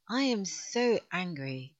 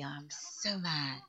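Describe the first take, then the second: First: Mock anger. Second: Mock sulk.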